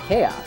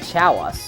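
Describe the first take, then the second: First: It begins with a k sound. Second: It begins with a ch sound. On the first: The speaker calls it right. "you say chaos" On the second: The speaker calls it wrong. "you don't say Chow us"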